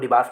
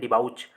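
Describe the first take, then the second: First: The second syllable sounds like 'bass'. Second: The second syllable sounds like 'bowch'. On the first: This is the usual pronunciation. "बाकी pronunciation इसको डिबास में पढ़ूंगा" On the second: This follows the spelling to help remember it. "तो इसको डिबाउच पढ़ेंगे हम लोग"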